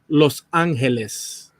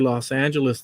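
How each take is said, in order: First: It is said with a Spanish pronunciation. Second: It is said with an American English pronunciation. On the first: The speaker calls it wrong. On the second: The speaker calls it right. "it's more natural to say"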